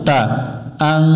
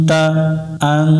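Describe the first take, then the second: No difference in how they are said.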